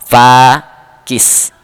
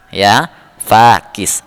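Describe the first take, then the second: First: Said in the usual way. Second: 1 slow repeat. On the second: Shown as a demonstration.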